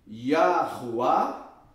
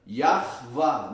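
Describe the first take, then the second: First: The middle sound is pronounced as a U. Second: The middle sound is pronounced as a V. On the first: The speaker calls it wrong. "Não tem nada a ver com Yahuá" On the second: The speaker calls it right. "aqui é sempre V"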